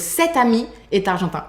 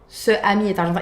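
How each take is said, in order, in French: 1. Un son t relie les deux voyelles. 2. Deux voyelles se suivent, sans son t entre elles. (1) "We add a final T" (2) "it doesn't sound even good"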